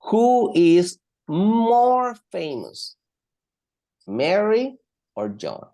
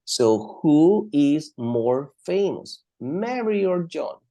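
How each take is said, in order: First: "more famous" stretched slow and loud; slow, emphatic question. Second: "more famous" said slowly; slow emphatic question. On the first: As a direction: draw out the question for the class. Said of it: "I'm using a comparative adjective". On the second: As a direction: stretch the question out for students. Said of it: "even in the question, I need to use the word more". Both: Shown as a demonstration.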